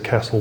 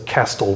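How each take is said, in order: First: The T sound is left out. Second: The T sound is clearly pronounced. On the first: The speaker calls it right. "without really a T sound" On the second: The speaker calls it wrong. "We don't say castle"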